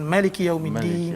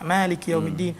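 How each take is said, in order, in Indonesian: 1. Vokal pertama Maliki dibaca pendek. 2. Vokal pertama Maliki dibaca panjang.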